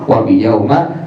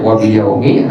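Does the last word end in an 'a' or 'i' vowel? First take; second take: a; i. First: The last word ends in an a vowel. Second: The last word ends in an i vowel. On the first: "atau dibaca wa biyauma" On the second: "boleh baca wa biyaumi"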